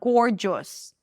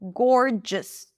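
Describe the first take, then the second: First: The final syllable has a full, clear vowel. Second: The final syllable is reduced to a schwa. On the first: The speaker calls it wrong. "not gorgeous" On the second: The speaker calls it right.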